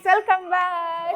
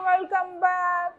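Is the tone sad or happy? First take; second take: happy; sad. First: It is said in a happy tone. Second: It is said in a sad tone.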